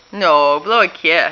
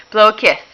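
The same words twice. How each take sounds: First: "blow" said slower and firmer, gently insisting; slower insistent ask. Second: Said in the usual way. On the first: Shown as a demonstration. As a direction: stretch out "blow a kiss" so the toddler gets it.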